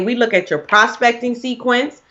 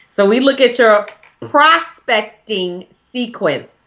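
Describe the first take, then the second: First: It is said at a faster pace. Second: It is said at a slower pace.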